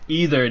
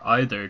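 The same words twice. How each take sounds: First: "either" said EE-ther; long-e either. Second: "either" said EYE-ther; long-i either. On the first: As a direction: start "either" with a long ee sound. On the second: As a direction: start "either" like the word eye. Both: Shown as a demonstration. Gives two pronunciations of the site's name.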